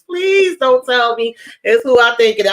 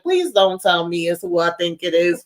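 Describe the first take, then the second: First: PLEASE raised high and punched, retold plea; emphatic plea. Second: Said in the usual way. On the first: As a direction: lean hard on Please, begging in mock dread. Retold plea, repeated more emphatically.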